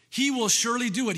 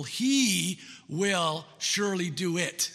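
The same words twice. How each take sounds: First: Louder, higher, quicker declaration; ringing, fast affirmation; emphatic proclamation. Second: Slow, weighty reading of the verse; unhurried scripture read. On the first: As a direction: proclaim it with conviction. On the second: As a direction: let each word land slowly. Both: Shown as a demonstration. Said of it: "another emphatic word".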